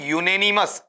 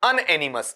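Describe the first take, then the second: First: The word begins with a 'yoo' sound. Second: The word begins with an 'un' sound. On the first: The speaker calls it right. "इसका जो उच्चारण तुम्हें करना है इसे करना है यूनेनिमस" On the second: The speaker calls it wrong. "UN को तुम निन्यानवे परसेंट अन बोलते हो"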